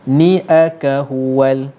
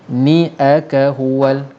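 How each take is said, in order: Both takes have the same delivery.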